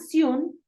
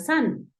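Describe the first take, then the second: First: The vowel sounds closer to an O. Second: The vowel sounds closer to an A. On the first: "o suena Sion" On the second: "como una A"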